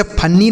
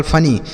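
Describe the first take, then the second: First: फनी misread with a doubled, held n; wrong reading of funny. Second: Said in the usual way. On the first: Shown as a demonstration. Teacher shows pupils the misreading to avoid, mispronounced फनी with doubled n. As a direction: say फनी wrongly as "fan-nee", long n. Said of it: "इसे फनी नहीं पढ़ेंगे". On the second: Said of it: "केवल फनी".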